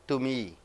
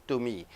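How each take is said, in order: No difference in how they are said.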